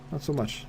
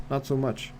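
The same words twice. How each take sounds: The two takes are said the same way.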